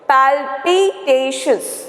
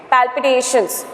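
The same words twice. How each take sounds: First: "Palpitations" drawn out slowly, each vowel stressed; teacher stretching the vowels in Palpitations; stressed syllables. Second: Said in the usual way. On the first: Shown as a demonstration. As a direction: split Palpitations into slow beats, pal-pi-tations. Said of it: "here we are stressing more". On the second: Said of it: "when we split it".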